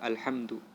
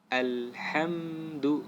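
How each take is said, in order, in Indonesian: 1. Bunyi M terputus tiba-tiba. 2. Bunyi M lembut dan mengalir. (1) "tidak boleh eh, kita potong" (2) "Dia lembut kemudian mengalir"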